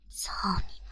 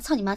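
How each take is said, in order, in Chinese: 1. 这个短语说得很慢，一个字一个字地说。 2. 这个短语说得很快，连在一起。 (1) "老娘明明是一字一句的在你耳边" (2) "我刚才是那样操你妈、操你妈、操你妈这样的吗？"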